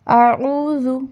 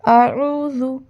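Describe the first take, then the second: The two takes are said the same way.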